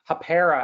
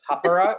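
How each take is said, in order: First: The name is said the Canadian way. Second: The name is said the New Zealand way.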